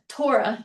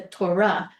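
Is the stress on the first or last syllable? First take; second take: first; last. First: The stress is on the first syllable. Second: The stress is on the last syllable. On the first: The speaker calls it wrong. "It's not the Torah. You're not spitting it out" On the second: The speaker calls it right. "It's the Torah"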